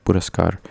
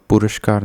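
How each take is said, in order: First: पुरस्कार with a simple "s", as "puraskaar"; correct sibilant. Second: पुरस्कार said with "sh", as "purashkaar"; wrong sibilant. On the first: Teacher correcting, पुरस्कार as "puraskaar". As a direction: say the स in पुरस्कार as plain "s". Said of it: "सपेरा simple सा लगता है". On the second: Teacher showing the error, पुरस्कार as "purashkaar". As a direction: swap the "s" in पुरस्कार for "sh". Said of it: "नहीं होता". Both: Shown as a demonstration.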